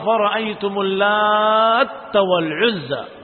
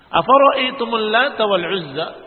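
First: The t is doubled, with a lengthened vowel before it. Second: The t is short and single, with a normal vowel. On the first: "dengan tasdid pada huruf ta" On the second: "dengan tanpa tasdid ta"

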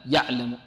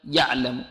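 No difference in how they are said.

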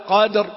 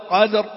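No difference in how they are said.

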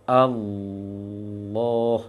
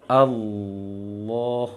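Both takes have the same delivery.

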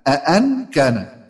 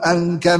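First: The word begins with two glottal stops. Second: The word begins with a single glottal stop. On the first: It is read as a question. "يعني بهمزتين" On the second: It is read as a statement. "احنا بنقول في حفص بنقول أن كان ذا مال وبنين"

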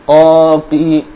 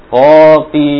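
The two takes are said the same way.

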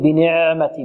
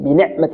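First: The ayn is drawn out like a long vowel. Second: The ayn is fully stopped and tense. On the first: "البعض يعني يأتي بها مثل الحرف المد" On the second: "نعطيها شدة، لا"

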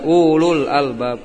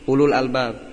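First: The first vowel is long. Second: The first vowel is short. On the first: The speaker calls it wrong. "jangan dibaca ulul albab" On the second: The speaker calls it right. "pendek ya"

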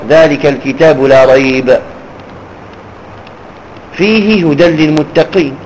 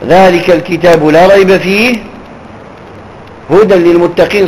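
First: There is a pause after 'la rayb'. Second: There is a pause after 'fihi'. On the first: The following words form a separate statement. "يصح الوقف على لا ريب" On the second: Guidance for the pious describes the book. "ويصح الوقف ذلك الكتاب لا ريب فيه ... وهذا أولى"

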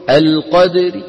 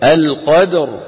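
First: It ends with a faint i vowel and light r. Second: It ends on a silent, heavy, full-mouthed r. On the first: "عند الوقف بالروم نعاملها معاملة الوصل ... ببعض الكسرة" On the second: "لو وقفنا بالسكون ... ساكنة وقبل مفتوح فتفخم"

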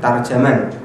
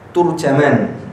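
First: Both the first and second syllables have 'a'. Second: The first syllable has 'u', the second 'a'. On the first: "dibaca tarjaman dengan fa, ta dan jim" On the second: "Ta-nya di dhamma, jim-nya di fathah"

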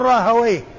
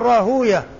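First: The middle is 'ha' then 'wayh'. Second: The middle is a long 'oo' then 'yah'. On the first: This is the form used by language scholars. "وأما أهل اللغة فينطقونها مفتوحة الواو والياء ساكنة" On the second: This is the form used by hadith scholars. "المحدثون ينطقون بها بالواو الساكنة بعدها ياء مفتوحة وآخرها هاء"

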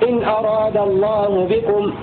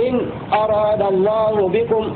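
The two takes are said the same way.

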